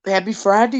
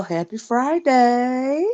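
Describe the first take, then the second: First: Said in the usual way. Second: Slow, higher, stretched-out greeting; drawn-out greeting. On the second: Real, not acted. Vlogger greets viewers on a Friday, drawn-out greeting. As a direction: draw the words right out, rising at the end.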